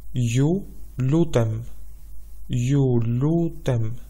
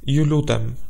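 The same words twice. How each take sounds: First: Ju lutem said slowly, each syllable drawn out; slow teaching demo. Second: Said in the usual way. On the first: Shown as a demonstration. Teacher spelling out Ju lutem slowly for listeners. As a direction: stretch out Ju lutem for learners to copy. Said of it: "The word please". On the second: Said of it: "In Albanian, it is".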